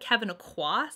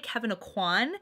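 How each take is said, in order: First: The last name ends without an N. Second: The last name ends in a heavy N. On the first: The speaker calls it right. "that's how you're supposed to say it" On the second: The speaker calls it wrong. "I would just like really heavily emphasize the N in his last name"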